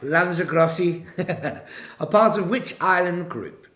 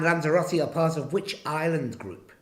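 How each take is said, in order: First: It is said in a Liverpool-area accent. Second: It is said in the speaker's usual accent.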